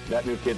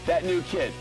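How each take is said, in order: First: It is said in a flat, repetitive way. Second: It is said with lively, varied expression. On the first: The speaker calls it wrong. "Otherwise, it's going to start" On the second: The speaker calls it right. "don't say that new kid the same way every time"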